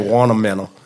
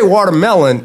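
First: It is said with a local Southern pronunciation. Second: It is said with a standard pronunciation. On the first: This is how people say it back home. "We say watermelon" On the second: This is how people back home do not say it. "Now we don't say watermelon"

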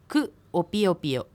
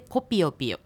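First: Ku and o are said as separate syllables. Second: The u drops, so ku and o merge. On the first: "くが私という認証接字で、くおピヨピヨで" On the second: "くのU の音が落ちるので、つながってコピヨピヨという音になります"

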